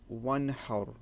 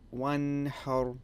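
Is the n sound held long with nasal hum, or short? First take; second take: short; long. First: The n is short without a nasal hum. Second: The n is held with a long nasal hum. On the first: The speaker calls it right. "you say one har" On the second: The speaker calls it wrong. "you don't say"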